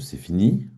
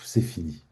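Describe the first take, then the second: First: It is said in an ironic tone. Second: It is said in a relieved tone. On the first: "Ou alors de manière ironique?" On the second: "Ou alors soulagé?"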